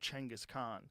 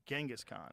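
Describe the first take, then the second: First: The name begins with a 'ch' sound. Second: The name begins without a 'ch' sound. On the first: This is the original form of the name. The speaker calls it right. "languages that didn't have cheng" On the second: This is the form changed by translation. The speaker calls it wrong. "they didn't have that sound"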